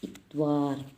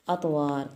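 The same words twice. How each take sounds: First: "इतवार" with a thin, light ta. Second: "अतवार" with a heavy bouncing t; heavy toe with echo. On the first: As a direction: say "इतवार" the everyday Urdu way, thin t. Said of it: "ये लफ्ज़ बोलते हैं हम उर्दू में". ("इतवार" बारीक ता के साथ) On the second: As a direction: say "अतवार" with a thick echoing t. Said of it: "double आवाज़ कुदरती तौर पे हमारी आ जाती है". ("अतवार" मोटी, गूँजती तो के साथ) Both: Shown as a demonstration.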